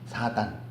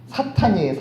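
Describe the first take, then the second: First: The second syllable starts with a plain d sound. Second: The second syllable starts with an aspirated t sound. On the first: The speaker calls it wrong. "발음은 사단 유단자예요" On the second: It names the devil. The speaker calls it right.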